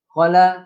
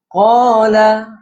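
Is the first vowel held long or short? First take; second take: short; long. First: The first vowel is clipped short. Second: The first vowel is drawn out long. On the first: The speaker calls it wrong. "Jangan qala, qala, nah, itu salah" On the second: The speaker calls it right. "qala itu panjang"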